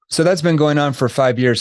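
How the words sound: It is quick, flat, and monotone at a high pitch. The speaker calls it wrong. "I said the question too fast and my tone was just straight monotone"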